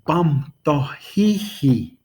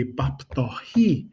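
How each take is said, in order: First: Bam tohihi said slowly, with the doubled hi; plural form. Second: Bap tohi said slowly, ending on a rise; slow, clear Bap tohi for one person; singular form. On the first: Teacher contrasting the plural with the singular question. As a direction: stretch out Bam tohihi, stressing the added hi. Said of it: "for two or more people". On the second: Teacher showing the singular form of the question. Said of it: "just you going somewhere". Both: Shown as a demonstration.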